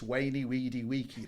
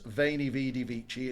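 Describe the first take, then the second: First: The words begin with a w sound. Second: The words begin with a v sound. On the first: The speaker calls it right. "it's Wainy Weedy Weeky" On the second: The speaker calls it wrong. "it's not Veiny Vidi Vici"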